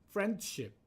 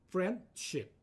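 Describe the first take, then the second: The two takes are said the same way.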